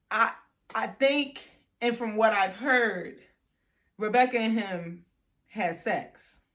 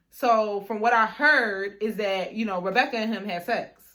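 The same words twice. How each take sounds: First: Slow retold reveal, broken by pauses; halting repeat. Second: Retold reveal, stretched opening words; measured gossip reveal. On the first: Friend asked to say the rumor again, halting repeat. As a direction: repeat it phrase by phrase, pausing between. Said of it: "I'm sorry, say that again". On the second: Friend passes on the rumor to her, measured reveal. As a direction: break the gossip in one connected run.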